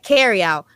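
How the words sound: The first word sounds like 'carry'. The speaker calls it wrong. "Can't say it like carry out because that's not what it is"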